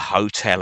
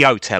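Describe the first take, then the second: First: The word begins with a clear H sound. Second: The word begins without any H sound.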